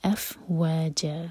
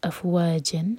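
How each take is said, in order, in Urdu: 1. یہ لفظ لمبی حرکت پر ختم ہوتا ہے۔ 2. یہ لفظ ناک والی 'n' کی آواز پر ختم ہوتا ہے۔ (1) "ہم پڑھیں گے اف و ج" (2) "انسٹیڈ آف اف و جن"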